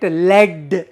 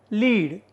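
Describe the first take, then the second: First: "lead" said like "led"; short e in "lead", rhyming with bed; short-e pronunciation. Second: "lead" said as LEED; long ee in "lead", rhyming with need; long-ee pronunciation. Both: Shown as a demonstration. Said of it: "we pronounce it as led".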